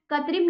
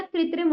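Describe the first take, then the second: First: कृत्रिम said as ka-trim, first ri missing; कृत्रिम with plain 'ka' at the start; wrong pronunciation. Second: कृत्रिम said as kri-trim; कृत्रिम with ri in the first syllable; correct pronunciation. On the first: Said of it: "नहीं होता". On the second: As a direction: sound both r's in कृत्रिम. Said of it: "होता है बच्चों". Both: Shown as a demonstration.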